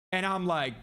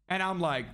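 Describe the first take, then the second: No difference in how they are said.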